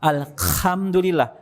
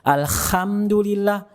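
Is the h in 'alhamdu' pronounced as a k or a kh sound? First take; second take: kh; kh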